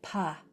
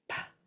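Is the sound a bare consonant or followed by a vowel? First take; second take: with vowel; bare consonant. First: The consonant is followed by an ah vowel. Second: The consonant is a puff of air, no vowel. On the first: The speaker calls it wrong. "This does not say pa" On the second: The speaker calls it right. "there is no ah. It's just air"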